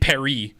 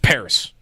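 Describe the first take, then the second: First: The word is said with a French pronunciation. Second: The word is said with an English pronunciation. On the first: This is the local way of saying it. "I'm not gonna say Paris" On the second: This is the speaker's own normal way of saying it. "It's Paris"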